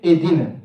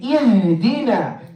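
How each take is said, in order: First: The h sound is left out entirely. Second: The h sound is clearly pronounced. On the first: The speaker calls it wrong. "they skip the ha altogether" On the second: The speaker calls it right. "We want to say"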